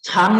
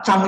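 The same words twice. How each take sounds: First: "Chang" with air pushed out after the ch; aspirated CH. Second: "Chang" begun tight, without a puff; unaspirated CH. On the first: Teacher explaining the word for long, aspirated "Chang". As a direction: puff the ch of "Chang", as pinyin C. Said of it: "dia harus pakai C". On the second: Teacher explaining the word for grow, unaspirated "Chang". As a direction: keep the ch in "Chang" free of breath, like Zhang. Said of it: "kalau dia ditulis pakai Z". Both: Shown as a demonstration.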